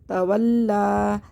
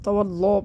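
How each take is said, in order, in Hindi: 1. L की आवाज़ हल्की और बारीक है। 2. L की आवाज़ भारी और मोटी है। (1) "ये हमने लाम क्यों बारीक पढ़ा?" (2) "इस तरह मोटा कर देते हैं"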